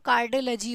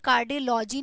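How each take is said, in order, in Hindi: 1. '-logy' का स्वर एक छोटी, हल्की आवाज़ है। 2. '-logy' का स्वर एक पूरी 'law' जैसी आवाज़ है। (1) "होगा" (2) "नहीं होगा"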